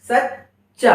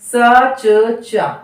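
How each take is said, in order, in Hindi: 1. दो अक्षर, बीच का व्यंजन दोहरा। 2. तीन अलग अक्षर, धीरे बोलने पर। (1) "लेकिन यहां पर सच्चा" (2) "हमने यहां बहुत वक्त लिया इसको बोलने में"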